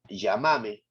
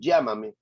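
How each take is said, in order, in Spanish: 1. Se dice con acento argentino. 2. Se dice con acento peruano. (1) "en Argentina dicen eh, llamame" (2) "acá nosotros decimos llámame"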